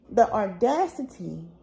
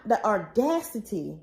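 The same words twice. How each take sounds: First: Laughing disbelief. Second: Said in the usual way. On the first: Real, not acted.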